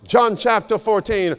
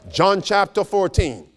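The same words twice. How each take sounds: The two takes are said the same way.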